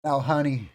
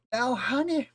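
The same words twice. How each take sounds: First: Put-on old Southern lady. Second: Much higher, off-target Southern granny voice; botched old Southern lady. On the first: Old Southern lady addressing a learner, condescending Southern voice. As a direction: play a Southern old lady saying a patronizing endearment. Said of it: "An old lady in the South who says". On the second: Acted. Teacher failing at an old Southern lady impression, too high. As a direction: overshoot a Southern old lady's pitch. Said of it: "that's not it at all".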